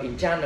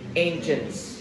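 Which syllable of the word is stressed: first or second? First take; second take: second; first. First: The stress is on the second syllable. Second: The stress is on the first syllable. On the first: The speaker calls it wrong. "Không đọc entrance nữa nha" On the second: The speaker calls it right. "nhắn vào thứ nhất"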